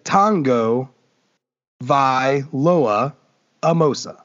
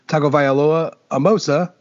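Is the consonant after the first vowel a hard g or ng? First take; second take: ng; hard g. First: The g sounds like a soft ng. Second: The g is a hard g sound. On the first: The speaker calls it right. "any G in a Samoan sounds like more like the NG" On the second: The speaker calls it wrong. "just kidding"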